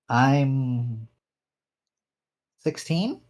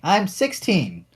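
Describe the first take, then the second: First: The voice rises at the end. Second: The voice falls at the end. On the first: The speaker sounds unsure of the answer. The speaker calls it wrong. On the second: The speaker states the answer firmly. The speaker calls it right.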